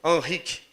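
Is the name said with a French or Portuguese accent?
French. The name is said with a French accent. "meio francês"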